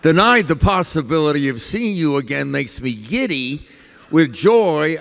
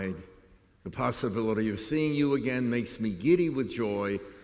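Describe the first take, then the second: First: A pause breaks the phrase before 'with joy'. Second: The phrase runs on through 'with joy' before pausing.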